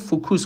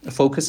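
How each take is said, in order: First: It is said with two vowels, like fokus. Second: It is said with one vowel, like foks. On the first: The speaker calls it wrong. "شما این رو فوکوس خوندید" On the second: The speaker calls it right. "طرف تو جملهش از فوکس استفاده میکنه"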